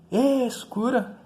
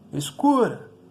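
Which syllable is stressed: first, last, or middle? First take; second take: first; middle. First: The stress is on the first syllable. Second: The stress is on the middle syllable. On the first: The speaker calls it wrong. "Não, né?" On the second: The speaker calls it right. "Você gritaria escura"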